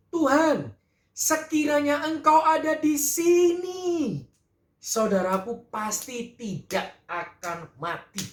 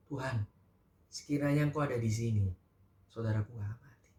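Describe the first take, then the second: First: Much higher, slow, anguished plea; Marta's lament. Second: Much softer, hushed, lower lament; quiet weeping. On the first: Marta at the gate reproaching Jesus, high drawn-out lament. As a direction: cry it out to the Lord as grieving Marta. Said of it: "Dikatakan di ayat dua puluh satu". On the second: Maria at Jesus' feet, quietly weeping the same words. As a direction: murmur it through tears, barely audible. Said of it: "Sambil dia menangis". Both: Acted.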